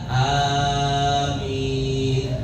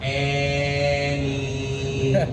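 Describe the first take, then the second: First: The first vowel is a long a. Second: The first vowel is an e sound.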